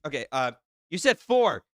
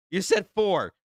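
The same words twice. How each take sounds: First: Said in the usual way. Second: Said hit higher and louder; stress on said. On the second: Real, not acted. Streamer double-checks the chat's number, stressing said. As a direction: lean hard on the word said, questioning.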